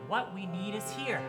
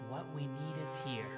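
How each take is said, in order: First: It is said a little louder. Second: It is said quietly.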